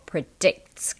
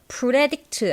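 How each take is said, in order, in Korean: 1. p는 입술에서 강하게 터져 나와요. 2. p는 부드럽고 한국어 소리와 비슷해요.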